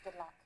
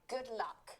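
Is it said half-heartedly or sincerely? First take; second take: half-heartedly; sincerely. First: It is said casually, without much feeling. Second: It is said with sincere, heartfelt feeling.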